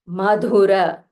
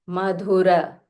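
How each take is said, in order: No difference in how they are said.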